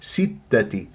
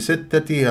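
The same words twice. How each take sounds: First: The first vowel is a clear i sound. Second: The first vowel lacks a clear i sound. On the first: The speaker calls it right. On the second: The speaker calls it wrong.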